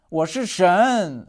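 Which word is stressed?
神. The stress falls on the word 神. The speaker is God rather than a human. "我不是你们人"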